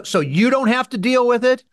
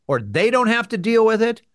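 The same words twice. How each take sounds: First: Contrastive weight on "you", pitch held high after; rising question that singles out "you"; stress on YOU. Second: Contrastive weight on "they", pointed question; questioning alternative that singles out "they"; stress on THEY. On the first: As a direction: lean on "you" as a pointed question. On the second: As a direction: lean on "they" as the other option. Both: Real, not acted. Rhetorical question contrasting you and they.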